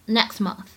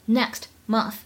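First: "next month" with the t unreleased; incomplete plosion. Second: Said in the usual way. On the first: Shown as a demonstration. Teacher showing the dropped burst in "next month", incomplete plosion. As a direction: hold back the t of "next" before "month". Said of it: "不完全失去爆破". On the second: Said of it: "前半句话的末尾next month".

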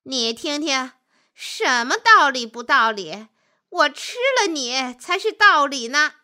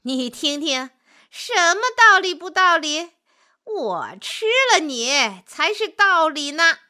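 First: Gloating, louder as it goes; smug, triumphant wolf voice; pleased wolf. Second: High, loud gloating; exultant wolf, raised pitch and volume; even more delighted wolf. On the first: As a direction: crow over your prey, pleased with the verdict. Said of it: "心里很高兴". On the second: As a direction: crow loudly in triumph over your prey. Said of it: "心里更高兴了". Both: A narrator's reading.

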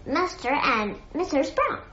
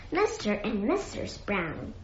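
First: Said in the usual way. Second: Soft, dazed echo; softly dazed repetition. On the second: A narrator's reading. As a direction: repeat it quietly, as if stunned. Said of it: "he repeated in a dazed voice".

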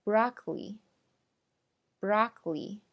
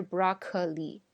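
First: Broccoli slowly as BROCK-lee; broccoli with no vowel after k; syllable dropped. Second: Broccoli as BROCK-uh-lee; broccoli in three syllables; wrong full form. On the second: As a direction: put a vowel after k in broccoli. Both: Shown as a demonstration. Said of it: "不是broccoli".

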